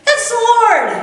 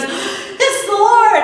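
First: High and loud, a sudden cry of recognition; excited announcement. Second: Slow, stretched, high and loud with a laugh; dawning realization. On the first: John spots Jesus and tells the disciples, high excited cry. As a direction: blurt out the discovery. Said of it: "one disciple said". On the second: Peter hears John and realizes who it is, slow laughing realization. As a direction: let it sink in as you say it. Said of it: "his brain engages and he goes". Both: Retold or imitated.

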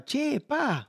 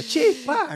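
First: Higher, laughing "Che, pa" in his wife's voice; a light, laughing take on his wife; imitating his wife. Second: Higher and louder "Che, pa" in his wife's voice; a bigger, louder take on the wife's "Che, pa"; imitating his wife again. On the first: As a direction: tease it like his Dominican wife saying "Che, pa". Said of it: "me decía". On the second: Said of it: "Mi esposa".

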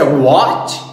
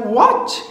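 First: WHAT swooping up, louder; surprised, rising WHAT; intonation of surprise. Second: Said in the usual way. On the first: Shown as a demonstration. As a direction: say WHAT as an astonished question. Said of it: "Se você tem entonação de surpresa". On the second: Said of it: "se não for entonação de surpresa".

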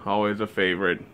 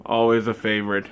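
The two takes are said the same way.

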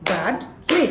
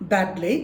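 First: Badly broken in two: bad, ly; split into syllables. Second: Said in the usual way. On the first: Shown as a demonstration. Teacher shows the syllables of a word, split apart. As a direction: clap out badly as two separate beats. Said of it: "সিলেবলটি হবে এরকম". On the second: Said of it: "এরকম".

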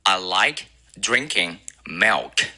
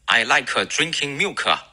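First: Like and milk clean, with no extra vowel; correct pronunciation. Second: Like and milk with an added kuh; wrong version; mock learner error. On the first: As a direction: say it right, no added kuh. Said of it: "正确的发音呢". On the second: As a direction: imitate the learner's extra vowels. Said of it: "很多中国同学喜欢发成". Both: Shown as a demonstration.

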